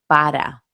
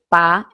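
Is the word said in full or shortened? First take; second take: full; shortened. First: The word is said with both syllables. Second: The word is shortened to one syllable. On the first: "en vez de decir para" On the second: "decir pa"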